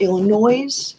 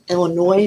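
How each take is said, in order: First: The final S sound is pronounced. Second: The final S sound is silent. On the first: The speaker calls it wrong. "not Illinois, like people in Missouri do, because for some reason they add an S" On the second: The speaker calls it right. "I've learned to pronounce it Illinois"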